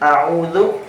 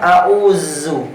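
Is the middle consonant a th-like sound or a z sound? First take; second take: th-like; z. First: The middle consonant is a soft th-like sound. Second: The middle consonant is a buzzing z sound. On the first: The speaker calls it right. "bukan huruf za di sini, tapi huruf zal" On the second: The speaker calls it wrong.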